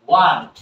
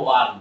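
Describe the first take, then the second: First: Said in the usual way. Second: "ওয়ান" ending on the N, no T; dropped final T. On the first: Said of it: "want বলবো না". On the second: Shown as a demonstration. Teacher shows want said as "ওয়ান", T dropped. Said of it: "আমরা শুধু বলবো ওয়ান".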